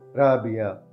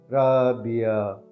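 First: It is said at normal speed. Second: It is said slowly.

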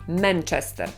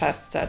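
First: The first vowel is a clear Polish e. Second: The first vowel sits between a and e. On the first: "I ja proponuję mówić przez E" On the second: "tak mówią Brytyjczycy i ta pierwsza samogłoska jest dokładnie pomiędzy polskim A a E"

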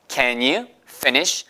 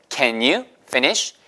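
The two takes are said the same way.

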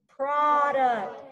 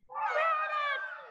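First: It is said in a deep voice. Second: It is said in a high squeaky voice.

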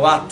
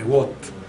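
First: The name is said with Italian-style pronunciation. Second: The name is said with English-style pronunciation. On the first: The speaker calls it wrong. "io lo chiamo Watt, scusatemi per la pronuncia" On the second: The speaker calls it right. "ma in realtà si dovrebbe chiamare Watt"

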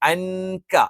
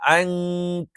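First: The n sound is pronounced clearly and fully. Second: The n sound is hidden with a nasal hum. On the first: The speaker calls it wrong. "അൻക എന്നല്ല" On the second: The speaker calls it right. "ഒന്ന് അവ്യക്തമാക്കി ഉച്ചരിച്ചുകൊണ്ട് മണിച്ചങ്ങ് ഉച്ചരിക്കും"

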